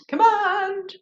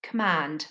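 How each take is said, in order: First: High modelled word. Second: Said in the usual way. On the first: Shown as a demonstration. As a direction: Command said high and bright for repeating. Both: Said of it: "Say command".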